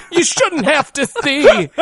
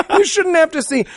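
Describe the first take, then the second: First: Higher and slow, rising plea; drawn-out overacted sorrow; slow hammed-up mother, ending up; mock melodramatic mother, slow. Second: Higher, falling final sob line; hammed-up mother dropping to a sigh; mock melodramatic mother, falling. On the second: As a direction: close the tragic line, overacted.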